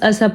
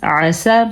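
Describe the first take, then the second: First: It begins with a plain glottal stop. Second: It begins with a throaty ain sound. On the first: The speaker calls it wrong. "हमने आइन को अलिफ बना के इस लफ्ज़ का हुलिया बिगाड़ दिया" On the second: The speaker calls it right. "इस आइन को अदा करने का ज़रूर ख्याल रखें"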